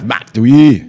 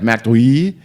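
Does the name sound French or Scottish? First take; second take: Scottish; French. First: The name is pronounced in a Scottish-sounding way. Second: The name is pronounced in a French-sounding way. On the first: The speaker calls it right. "Is that better?" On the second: The speaker calls it wrong. "that sounds French, not Scottish"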